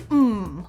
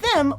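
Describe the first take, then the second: First: The word is reduced, starting with a vowel sound. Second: The word is said in full with its first consonant. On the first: "we often say mm" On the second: "instead of them"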